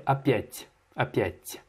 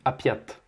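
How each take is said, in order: First: "опять" ending in a soft palatal t; soft final t. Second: "опять" ending in a hard t; hard final t. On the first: Teacher models the soft final t in "опять". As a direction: soften the t at the end of "опять". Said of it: "il y a un signe mou". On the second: Teacher imitates the student's hard final t in "опять". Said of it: "tu ne mouilles pas le T". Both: Shown as a demonstration.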